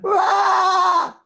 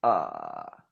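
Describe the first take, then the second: First: High, loud rasping drive ah; drive scream. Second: Low creaky fry ah; fry sound. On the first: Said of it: "vou te ensinar o drive aqui". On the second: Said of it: "Aí você faz o fry". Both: Shown as a demonstration.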